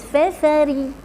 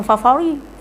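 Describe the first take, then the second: First: Feferi with a thin ra and clear e vowels; correct thin ra. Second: Fafari with open a vowels; the mistaken fafari with flat a sounds; wrong version. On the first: Teacher correcting a student's ra sound, thin and light. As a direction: say Feferi, not fafari, lightly. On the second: Teacher showing the wrong way, open vowels. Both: Shown as a demonstration. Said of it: "Bukan fafari".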